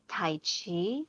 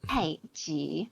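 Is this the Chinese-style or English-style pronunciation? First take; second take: English; Chinese. First: It is said the common English way. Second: It is said the Chinese way. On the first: The speaker calls it wrong. "So they pronounce it Tai Chi" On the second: The speaker calls it right. "In in Chinese, it's Tai Ji"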